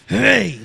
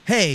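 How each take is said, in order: First: It is said forcefully, with gritty emphasis. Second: It is said plainly, without force.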